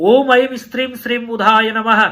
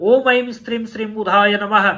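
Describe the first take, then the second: Both takes have the same delivery.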